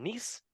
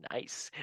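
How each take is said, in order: First: "Nice" said as "neece", like the French city; French pronunciation. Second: "nice" said to rhyme with "ice"; English pronunciation. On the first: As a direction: say "Nice" with an ee vowel. French city name, then English wordplay. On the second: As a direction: say "nice" quietly with a long i. English word echoing the city name. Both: Acted.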